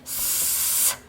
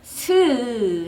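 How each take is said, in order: First: The s is a sharp hiss with no vowel. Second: The s ends with an added 'eu' vowel. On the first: The speaker calls it right. "스만 날카롭게 스 하고 발음을 하시면" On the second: The speaker calls it wrong. "스 하지 마시고"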